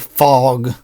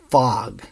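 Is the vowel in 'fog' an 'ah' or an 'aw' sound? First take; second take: aw; ah. First: The vowel is a rounded 'aw' sound. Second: The vowel is an open 'ah' sound. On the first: This is how people usually say it. The speaker calls it wrong. "we usually say fog" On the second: This is the careful textbook form. The speaker calls it right. "but the correct pronunciation, f, ah, g"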